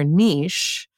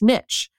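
First: It rhymes with quiche, with a long vowel. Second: It rhymes with rich, with a short vowel. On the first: It sounds fancier. "it sounds so much fancier when you hear niche" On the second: It sounds plain and relatable. "it must rhyme with rich"

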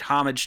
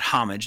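First: The word begins without an h sound. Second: The word begins with an h sound. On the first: The speaker calls it right. "The H is silent" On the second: The speaker calls it wrong. "not homage"

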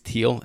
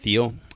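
First: The name begins with a plain t sound. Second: The name begins with a th sound. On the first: The speaker calls it right. "There's a T-H in there, but I think it's Thiel" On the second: The speaker calls it wrong. "and not Thiel"

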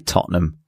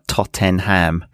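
First: Several sounds are dropped, making it shorter. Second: Every syllable is pronounced fully and clearly. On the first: This is how people in England say it. "anyone in England will always just say Tottenham" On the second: This is how learners say it. "that's always pronounced like Tottenham"

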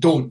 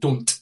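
First: The final t is replaced by a glottal stop. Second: The final t is fully pronounced and released. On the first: "I would say don't" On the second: "instead of don't"

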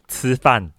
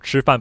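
First: The first consonant is flat, Taiwanese-style, not retroflex. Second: The first consonant is retroflex, with curled tongue.

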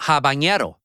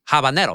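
First: The n is said as a 'ny' sound. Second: The n is said as a plain n sound. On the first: The speaker calls it wrong. "It's not habanero" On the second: The speaker calls it right. "there's not the tilde"

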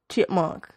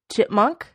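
First: The vowels are stretched out and lengthened. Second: The vowels are short and plain.

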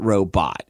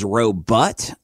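First: It is said in a standard pronunciation. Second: It is said in a rural country pronunciation. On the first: This is the usual way of saying it. "not robot" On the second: This is how the speaker's mother said it. "my absolute favorite was robot"

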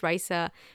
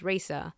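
First: The name has a Spanish pronunciation. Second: The name has an English pronunciation. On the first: This is how the name is really said. "My name is Raisa" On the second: This is how English readers say the name. "if you read my name in English, it's Raisa"

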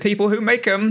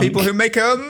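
First: It is said in a plain, low-energy way. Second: It is said with more energy and gusto. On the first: The speaker calls it wrong. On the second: The speaker calls it right.

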